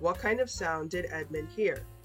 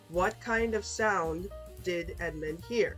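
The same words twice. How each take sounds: First: The question is read at normal, faster speed. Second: The question is read at a slow pace. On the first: "one time normal speed" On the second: "two times slow"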